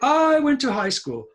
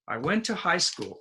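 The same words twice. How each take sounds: First: The word 'I' is said on a high pitch. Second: The word 'I' is said on a low pitch. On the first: The speaker calls it wrong. "some students say, ... But we don't do that" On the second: The speaker calls it right. "Say it low"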